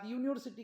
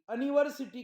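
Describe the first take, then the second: First: The word begins with a 'yoo' sound. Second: The word begins with a short 'a' sound. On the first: The speaker calls it right. "तेव्हा यूचा उच्चार अ न करता यू करतात" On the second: The speaker calls it wrong. "अनिव्हर्सिटी का म्हणत नाही?"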